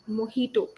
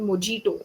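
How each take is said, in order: First: The middle consonant is an H sound. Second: The middle consonant is a J sound. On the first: The speaker calls it right. "It's actually mojito" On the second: The speaker calls it wrong. "Most people call it mojito"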